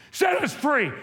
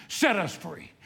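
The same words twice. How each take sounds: First: Higher, louder pleading cry; cried out. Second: Said in the usual way. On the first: Retold or imitated. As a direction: build the chant to a peak. Chant built to a cry.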